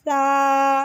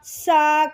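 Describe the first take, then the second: First: The s sound is thin and soft. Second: The s sound is hard, without softness. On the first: The speaker calls it right. "सा नरमी के साथ पढ़ना है, बारीक और नरमी से" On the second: The speaker calls it wrong. "सा की नरमी छोड़ देते हैं ... ये बिल्कुल गलत है"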